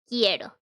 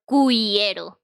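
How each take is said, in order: First: No W sound follows the K sound. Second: A W sound follows the K sound. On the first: The speaker calls it right. "It's queso and quiero" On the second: The speaker calls it wrong. "not pronounce it queso or cuiero. Because no, it's not pronounced that way"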